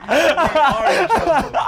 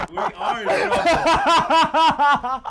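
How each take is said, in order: First: High and slow, still laughing hard; squeezing the words out through laughter; second round of laughing at the punchline. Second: High, slow and laughing hard; can barely get the words out for laughing; wheezing with laughter at the punchline. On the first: Repeats the line, still cracking up. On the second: Repeats the line, cracking up. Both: Real, not acted.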